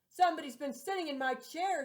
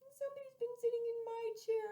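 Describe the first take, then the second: First: The voice is deep, rough and gruff. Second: The voice is small, high and tiny. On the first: The largest bear is speaking. "in a great rough, gruff voice" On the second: The smallest bear is speaking. "in her little, small, wee voice"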